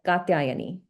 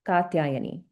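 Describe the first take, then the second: Both takes have the same delivery.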